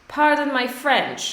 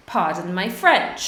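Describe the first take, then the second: First: Model phrase said higher. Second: Said in the usual way. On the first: Shown as a demonstration.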